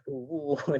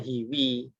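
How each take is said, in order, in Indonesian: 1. Kedua vokal itu bunyi u. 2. Kedua vokal itu bunyi i. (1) "Tidak pernah dibaca" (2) "Tidak pernah dibaca hiwi"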